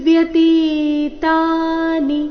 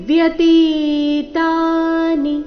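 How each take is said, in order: Both takes have the same delivery.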